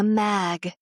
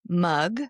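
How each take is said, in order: First: The vowel is the 'a' sound as in cat. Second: The vowel is the 'uh' sound as in cup. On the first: The speaker calls it wrong. "She's saying, she shrugged. She was holding a mag" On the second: The speaker calls it right. "She won't do shrug, mug"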